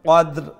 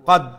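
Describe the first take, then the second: First: The word ends with a clear final r sound. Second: The word ends without the final r sound. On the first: The speaker calls it right. "দালের উপর আমি জজম আমি উচ্চারণ করলাম আর এন্ডে দি রা" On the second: The speaker calls it wrong. "রাটা উচ্চারণ হয় না কদ অম অমলাখান না"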